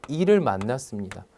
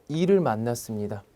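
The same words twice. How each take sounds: The two takes are said the same way.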